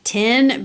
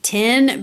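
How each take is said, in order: First: The vowel sounds like the one in tin. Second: The vowel sounds like the one in tin.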